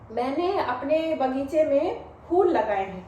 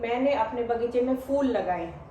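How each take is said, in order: First: Phool starts with an aspirated p sound. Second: Phool starts with an f sound. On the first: I have planted flowers in my garden. The speaker calls it right. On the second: It sounds like the English word fool. The speaker calls it wrong.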